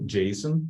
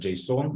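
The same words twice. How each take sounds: First: The stress is on the first syllable. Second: The stress is on the second syllable. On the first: The speaker calls it right. "with a stress on the first syllable" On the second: The speaker calls it wrong. "not JSON"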